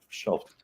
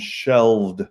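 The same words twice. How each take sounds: First: The word is said without a clear V sound. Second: The word is said with a clear V sound. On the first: The speaker calls it wrong. "not shelved" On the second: The speaker calls it right. "you want to use the pronunciation shelved with a V"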